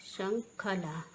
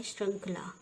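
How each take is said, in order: First: श्रृंखला as "shan-khala"; wrong pronunciation. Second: श्रृंखला as "shrankhla"; correct pronunciation. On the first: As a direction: split श्रृंखला into slow separate syllables. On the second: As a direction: shr start and joined khl in श्रृंखला. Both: Shown as a demonstration. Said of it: "क्या होता है हमारे?".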